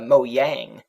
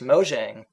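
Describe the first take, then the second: First: The j is pronounced like a y. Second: The j is pronounced like an English j. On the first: This is how it is said in Sweden. "in uh, Sweden it's pronounced uh, Mojang, because you got lots of uh, J's that sound like Y's" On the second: This is the English pronunciation. "the way I pronounce it in the song is the uh, English uh, pronunciation"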